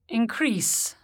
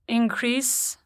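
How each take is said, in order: First: The stress is on the second syllable. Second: The stress is on the first syllable. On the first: It is a verb. "the corresponding verb is stressed on the stem" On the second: It is a noun or adjective. "Many nouns and adjectives are stressed on the prefix"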